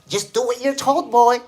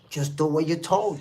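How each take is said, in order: First: It is said in a put-on accent. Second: It is said in the speaker's plain voice.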